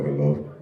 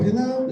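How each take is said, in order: First: It is said in a deep, low voice. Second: It is said in a high, girlish voice.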